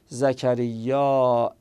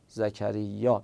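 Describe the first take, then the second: First: The final vowel is drawn out, ending in a glottal stop. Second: The final vowel is short with no glottal stop. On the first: "اینقدر میکشیم تا آخرش یه همزه بیاریم، این میشه ممدود" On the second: "این مقصور است. یعنی خیلی تلفظ کشدار نمی کنیم"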